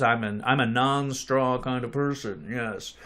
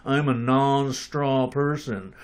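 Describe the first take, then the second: First: Jaw pushed forward, lower and softer; underbite. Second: Jaw jutted out, slow and lower; underbite. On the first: Pretend. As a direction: stick the jaw out, goofy put-on accent. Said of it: "You gotta stick your jaw out like that". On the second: Shown as a demonstration. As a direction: push the jaw forward and drawl it out. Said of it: "you have to take on the accent".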